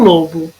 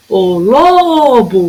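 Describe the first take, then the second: First: Said in the usual way. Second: "lobo" with a very long LO; calling the word. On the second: Shown as a demonstration. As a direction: draw out the first syllable of "lobo", LO, slowly. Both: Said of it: "O que que durou mais?".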